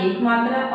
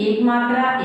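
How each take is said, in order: The two takes are said the same way.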